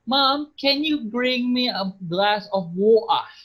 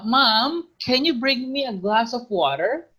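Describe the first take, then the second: First: It is said in a Scottish accent. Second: It is said in an American accent.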